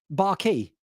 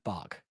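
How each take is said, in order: First: The word ends with an added 'ee' sound. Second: The word ends with a plain 'k' sound. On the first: The speaker calls it wrong. "because Q U E is key" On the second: The speaker calls it right. "We don't pronounce the Q U E. It's just bark"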